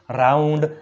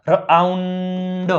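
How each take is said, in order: First: Said in the usual way. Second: રાઉન્ડ drawn out in parts, ર-આઉન-ડ; teacher slowly sounding out રાઉન્ડ; sounded out. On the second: Shown as a demonstration. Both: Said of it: "તેનો ઉચ્ચાર આવ થાય છે".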